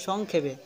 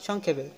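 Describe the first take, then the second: Both takes have the same delivery.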